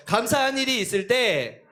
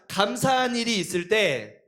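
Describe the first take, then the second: First: "감사한" stressed again, at normal pace; model phrase again. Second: "감사한" drawn out and stressed, slow; slow model phrase. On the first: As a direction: repeat "감사한 일이 있을 때" for kids. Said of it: "다시 한번". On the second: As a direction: say "감사한 일이 있을 때" slowly for kids to repeat. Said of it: "다시 한번 따라해보자". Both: Shown as a demonstration.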